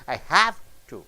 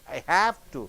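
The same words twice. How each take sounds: First: The stress falls on the middle word. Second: The same.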